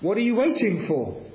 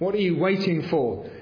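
First: It sounds warm and encouraging. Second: It sounds like a probing, questioning demand. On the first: The listener is being urged to come along. "Or an invitation" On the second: The listener is being asked to explain the delay. "It can be an interrogation"

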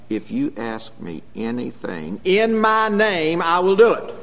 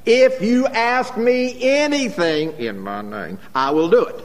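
First: The emphasis falls on the last part. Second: The emphasis falls on the first part. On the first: The doing matters more than the asking. "the emphasis has always been on the last part of the verse" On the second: The asking matters more than the doing. "they'll emphasize the first, the exclusion of the last"

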